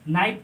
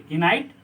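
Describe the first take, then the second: First: The k sound is silent. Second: The k sound is pronounced. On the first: The speaker calls it right. "इसको हम नाइट पढ़ेंगे" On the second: The speaker calls it wrong. "कि नाइट नहीं पढ़ेंगे"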